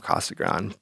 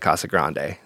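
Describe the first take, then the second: First: It uses the local pronunciation of the name. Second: It uses a pronunciation based on the spelling. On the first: The speaker is from the place. "it's Casa Grande if you're from Casa Grande" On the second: The speaker is only reading the name. "if you're just reading it, it looks like Casa Grande"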